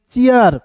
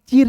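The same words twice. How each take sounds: First: चीयर with a ya glide; two-part चीयर. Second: The misreading चीर, ee straight into r; चीर with no ya glide; one-syllable चीर. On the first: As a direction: say चीयर as chee-yar. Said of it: "इसे पढ़ेंगे चीयर". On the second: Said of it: "चीर नहीं पढ़ेंगे". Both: Shown as a demonstration.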